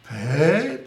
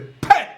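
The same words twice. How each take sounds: First: It is said softly and gently. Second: It is shouted suddenly and loudly.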